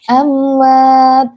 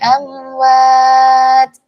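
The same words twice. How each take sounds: First: The final t is clipped with no breath. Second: The final t is released with audible breath. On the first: The speaker calls it wrong. "Jangan amwat, amwat. Nggak seperti itu" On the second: The speaker calls it right. "jangan lupa diberikan hamasnya huruf ta"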